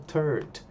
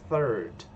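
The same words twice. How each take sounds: First: It begins with a hard 't' sound. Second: It begins with a soft 'th' sound. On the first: The speaker calls it wrong. "eu posso acabar pronunciando outra coisa" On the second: The speaker calls it right. "o sonzinho aqui"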